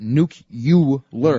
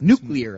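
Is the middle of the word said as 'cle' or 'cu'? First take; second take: cu; cle. First: The word is said as nuke-u-ler. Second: The word is said as nu-clee-ar. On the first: The speaker calls it wrong. "People pronounce it nuke-u-ler" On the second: The speaker calls it right. "It's nuclear. That's the correct pronoun"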